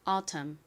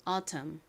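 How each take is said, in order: Both takes have the same delivery.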